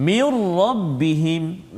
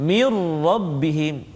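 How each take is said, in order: Both takes have the same delivery.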